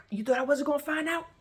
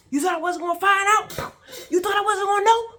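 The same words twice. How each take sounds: First: High, raised accusing question; rising rage. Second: Very high, full-force shouted questions; furious yelling. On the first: Swinging the belt at him, rising rage. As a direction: pitch it up, building toward a yell. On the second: Swinging the belt at him, furious yelling. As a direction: yell each accusation at the top of your voice. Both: Retold or imitated.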